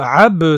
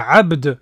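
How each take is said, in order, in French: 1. Le mot se termine sans le son d final. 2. Le mot se termine par un son d final bien net. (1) "ab, ça veut rien dire du tout. Le dal, il a même pas prononcé" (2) "C'est abd"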